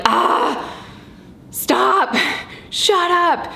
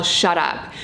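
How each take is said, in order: First: Rising, exasperated mock outburst, pitch climbing up to a high "shut up"; fed-up mom venting at the bickering kids; mock exasperated snap. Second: Said in the usual way. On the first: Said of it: "I really just wanna be like". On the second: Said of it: "I don't just yell".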